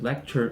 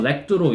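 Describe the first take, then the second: First: It is said with a standard English accent. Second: It is said with a heavy Spanish accent. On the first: Listeners can recognize the word. The speaker calls it right. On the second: Listeners could not recognize the word. The speaker calls it wrong.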